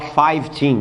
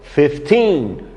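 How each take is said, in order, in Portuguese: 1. A primeira sílaba soa como 'five', com v. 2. A primeira sílaba soa como 'fif', com f. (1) "As pessoas têm mania de falar fifteen. Horrível isso" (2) "A pronúncia é fifth"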